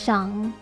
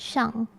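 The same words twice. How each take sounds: First: The pitch rises during the syllable. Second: The pitch falls all the way down. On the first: "your voice goes a bit up" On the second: "you go down"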